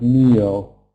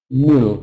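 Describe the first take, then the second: First: The vowel is long. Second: The vowel is short. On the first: The speaker calls it right. "instead of meal" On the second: The speaker calls it wrong. "pronouncing short vowel sound instead of long vowel sounds"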